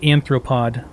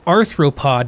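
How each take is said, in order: First: The first syllable ends with an N sound. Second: The first syllable ends with an R sound. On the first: The speaker calls it wrong. "not anthropod" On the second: The speaker calls it right. "It's arthropod"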